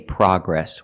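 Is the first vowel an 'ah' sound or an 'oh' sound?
ah. The first vowel is a short 'ah' sound. This is the American way of saying it. The speaker calls it right. "In America, we say progress"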